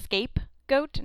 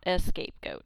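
First: The word starts directly with the s sound. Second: The word starts with an extra e sound. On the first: The speaker calls it right. "So it's scapegoat" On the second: The speaker calls it wrong. "not a scapegoat"

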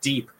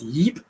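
First: The name begins with a D sound. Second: The name begins with a Y sound. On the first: The speaker calls it wrong. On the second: The speaker calls it right. "her real name is Yip"

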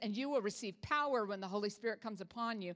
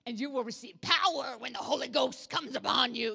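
First: It is said in her normal voice. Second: It is said in a put-on preacher voice.

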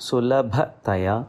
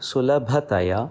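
Both takes have the same delivery.

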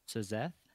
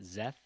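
First: The initial S is sounded before the z. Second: The initial S is silent; it starts with z. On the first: The speaker calls it wrong. "the pronunciation I would have gone for is Sazeth" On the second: The speaker calls it right. "They pronounce it Zeth as in a Z and then Eth. The S is silent"

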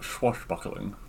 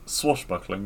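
First: The word begins with a 'ch' sound. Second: The word begins with a plain 's' sound. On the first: The speaker calls it wrong. "not swashbuckling. ... like it has a CH in the front" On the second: The speaker calls it right. "It's swashbuckling"

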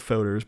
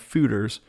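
First: The first vowel is an 'oh' sound. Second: The first vowel is an 'oo' sound. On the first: This is how many people commonly say it. The speaker calls it wrong. "I thought they were foeders" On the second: This is how it is traditionally said in Belgium. The speaker calls it right. "the traditional pronunciation is fooder"

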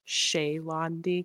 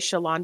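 First: The name is said carefully, in a fuller form. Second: The name is said casually, starting with 'Sha'. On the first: The speaker calls it right. "I always want her to be pronounced like Shalandi because it sounds more elegant" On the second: The speaker calls it wrong. "I always say Shalandi because I'm lazy"

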